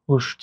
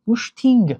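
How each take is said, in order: First: The word ends in a vowel. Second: The word ends in an added ng. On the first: "шакли дурусти" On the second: "аллакай ду овоз илова шуд"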